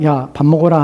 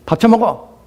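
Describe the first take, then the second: First: It is said gently, without anger. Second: It is said angrily, like the father.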